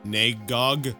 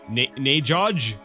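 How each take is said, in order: First: The g sounds are hard, as in go. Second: The g sounds are soft, like a j.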